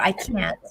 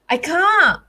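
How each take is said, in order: First: It is said in an American accent. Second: It is said in a non-American accent.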